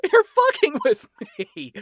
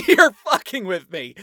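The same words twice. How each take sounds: First: Squealing high with laughter; laughing, much higher. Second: Louder, higher, laughing in disbelief. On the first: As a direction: pitch it way up, still laughing. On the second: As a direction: laugh it out, can't believe it. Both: A narrator's reading. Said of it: "burst into laughter and doubled over".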